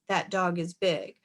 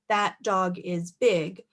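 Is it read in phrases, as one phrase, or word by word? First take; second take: one phrase; word by word. First: All words flow together without pauses. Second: Each word is separated by a pause. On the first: The speaker calls it right. "reading it as one big phrase" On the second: The speaker calls it wrong. "reading these words spread out"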